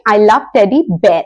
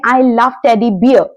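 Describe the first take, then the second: First: "I love teddy bear" with bear rhyming with "air"; slow model sentence, bear like bare; correct pronunciation. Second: The "bear" in "I love teddy bear" drawn out to rhyme with beer; wrong pronunciation. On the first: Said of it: "आप कहेंगे". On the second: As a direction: bear said as "biər", slow and deliberate. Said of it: "तो अगली बार आप बाजार में जाएं तो ये ना बोलें". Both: Shown as a demonstration.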